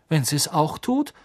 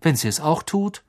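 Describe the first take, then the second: First: Forced out through gritted teeth. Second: Bitter. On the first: Harry answering his uncle through gritted teeth. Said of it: "sagte Harry zähneknirschend". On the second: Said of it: "sagte Harry bitter". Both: A narrator's reading.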